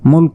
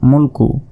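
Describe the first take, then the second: First: The word ends on a bare 'k' consonant. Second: The word ends with a short 'u' vowel. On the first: The reading pauses at this word. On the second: The reading continues without a stop.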